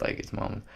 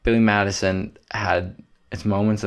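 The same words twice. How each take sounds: First: Breathy whispered afterthought; whispered aside. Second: Said in the usual way. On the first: Acted. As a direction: drop to a knowing whisper. Repeats the phrase in a whisper.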